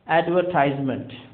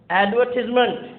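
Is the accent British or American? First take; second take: American; British. First: It is said in an American accent. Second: It is said in a British accent.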